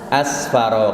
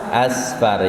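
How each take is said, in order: First: The word ends with a final vowel. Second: The final vowel is dropped, ending on a consonant. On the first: The reading continues without stopping. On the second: The reader stops at this word.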